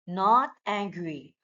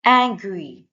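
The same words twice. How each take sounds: First: Said in the usual way. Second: Acts out the word angry with a loud, cross edge. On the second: Shown as a demonstration. Teacher demonstrating the feeling word to pupils, cross and loud. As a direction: say it like you are mad.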